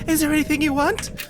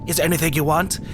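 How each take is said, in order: First: It is said in a lighter voice. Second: It is said in a gruff voice.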